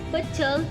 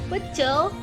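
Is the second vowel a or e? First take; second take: a; e. First: The second vowel is an a sound. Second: The second vowel is an e sound. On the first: The speaker calls it wrong. "pelafalan tidak bakunya menjadi" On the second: The speaker calls it right. "lafalan baku"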